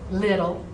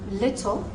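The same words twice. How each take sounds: First: The middle consonant is soft and slurred. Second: The middle consonant is crisp and precise. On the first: "slop it out" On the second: "They're being very precise"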